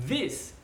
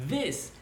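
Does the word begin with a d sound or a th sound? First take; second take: th sound; th sound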